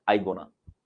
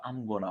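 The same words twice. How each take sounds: First: I gonna, dropping the am; wrong way: I gonna; wrong form. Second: I'm gonna, with the m clearly added; right form. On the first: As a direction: say I gonna without the am. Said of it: "अरे I gonna नहीं होता". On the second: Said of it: "I'm gonna होता है". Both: Shown as a demonstration.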